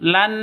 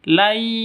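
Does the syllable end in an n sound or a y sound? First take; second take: n sound; y sound. First: The syllable ends with a clear n sound. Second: The syllable ends merged into a y sound. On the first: The speaker calls it wrong. "Bukan lan" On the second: The speaker calls it right. "tapi lai masuk ke ya"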